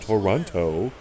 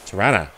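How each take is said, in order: First: The city name is said in an outsider's way. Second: The city name is said in the local way. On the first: The speaker calls it wrong. "It's not Toronto" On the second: The speaker calls it right. "that's how you pronounce it"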